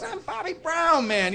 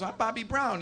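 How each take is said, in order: First: High, drawn-out insistence; insistent. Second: Soft, slightly raised-pitch retold introduction; understated introduction. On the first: Retold or imitated. Bobby argues with the doubting cook, high and insistent. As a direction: imitate someone protesting his own identity. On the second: Bobby introduces himself to the guy cooking chicken, understated.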